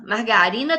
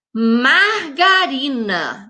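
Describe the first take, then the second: First: Said in the usual way. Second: "Margarina" drawn out slowly, syllable by syllable; syllable-stretched. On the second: Shown as a demonstration. Teacher showing pupils the four syllables, "Margarina" drawn out. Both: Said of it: "Margarina tem quatro sílabas".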